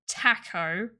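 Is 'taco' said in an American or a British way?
British. The word is said with a British vowel. "Why are you saying taco?"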